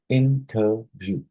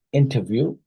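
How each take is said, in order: First: "interview" slowly split as in-ter-view; syllable by syllable. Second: Said in the usual way. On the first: Shown as a demonstration. Teacher showing a trisyllabic word, slow syllable-by-syllable "interview". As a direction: sound out "interview" in three separate beats. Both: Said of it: "A trisyllabic word would be".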